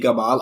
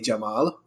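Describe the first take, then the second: First: The name starts with a hard G sound. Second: The name starts with a J sound. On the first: This is the Egyptian way of saying the name. "my co-host would say Gamal" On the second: This is the standard Arabic way of saying the name. "I would say Jamal"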